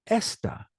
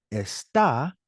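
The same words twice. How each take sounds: First: Esta, punched on ES, dropping away; stress on first syllable. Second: Está, stretched and stressed on the final syllable; stress on second syllable. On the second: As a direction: say está slowly, leaning on the last syllable. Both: Shown as a demonstration. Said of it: "how my voice raises".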